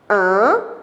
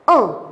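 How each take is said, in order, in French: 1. La voyelle nasale se dit avec les lèvres étalées. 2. La voyelle nasale se dit avec les lèvres arrondies. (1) "En souriant" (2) "en allongeant les lèvres en avant"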